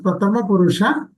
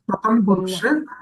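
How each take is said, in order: First: The first word ends with a final vowel. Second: The first word ends without its final vowel. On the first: The speaker calls it right. "It is Pratama Purusha" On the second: The speaker calls it wrong. "not Pratham Purusha"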